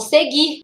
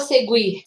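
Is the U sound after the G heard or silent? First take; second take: silent; heard. First: The U sound after the G is silent. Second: The U sound after the G is pronounced. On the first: The speaker calls it right. "Não tem U, ó" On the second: The speaker calls it wrong. "Eu não falo seguir"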